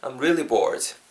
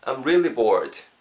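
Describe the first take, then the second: Both takes have the same delivery.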